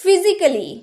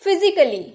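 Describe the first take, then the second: The two takes are said the same way.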